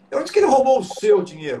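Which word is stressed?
seu. The stress is on "seu".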